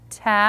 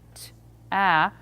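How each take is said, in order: First: The two sounds are blended smoothly together. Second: The two sounds are said as separate units. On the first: The speaker calls it right. "but ta" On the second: The speaker calls it wrong. "look at them as individual units and saying t, a"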